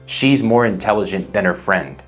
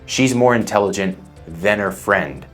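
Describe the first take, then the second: No difference in how they are said.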